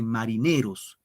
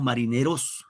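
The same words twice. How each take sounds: First: "marineros" with the accent on NE, falling after it; stress on NE. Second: "marineros" with the accent thrown onto final ROS; wrong stress on ROS. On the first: Teacher corrects to how it is said, "marineros" stressed on NE. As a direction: say "marineros" as mariNÉros, next-to-last syllable stressed. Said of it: "se dice marineros". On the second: Teacher shows what we do not say, "marineros" stressed on ROS. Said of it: "Y no decimos". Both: Shown as a demonstration.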